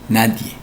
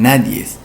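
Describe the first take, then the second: First: The word ends with a vowel, no s. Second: The word ends with an extra s sound. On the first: The speaker calls it right. "No, nadie" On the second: The speaker calls it wrong. "vulgarismo prosódico"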